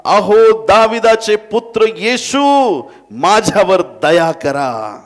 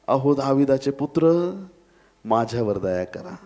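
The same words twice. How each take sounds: First: High, drawn-out desperate shout; loud crying out. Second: Said in the usual way. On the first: Acted. Blind beggar calls to Jesus on the road, loud crying out. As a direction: call out at full voice, stretching every word. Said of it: "तो मोठमोठ्याने म्हणू लागला".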